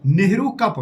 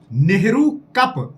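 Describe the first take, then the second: First: Said in the usual way. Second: Nehru कप stretched out slowly, Nehru leaned on; slow emphatic drill. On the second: Shown as a demonstration. Teacher drilling students on a trophy name, slow and stressed. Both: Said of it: "याद रखे".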